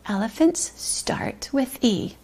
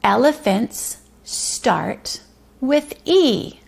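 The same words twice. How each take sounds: First: Soft unvoiced whisper; hushed whispered sentence. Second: Slow, deliberate sentence read-aloud; slow, clear reading. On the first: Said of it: "whispered repeat after tapping". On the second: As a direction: stretch each word out slowly. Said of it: "the morning message is". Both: Shown as a demonstration.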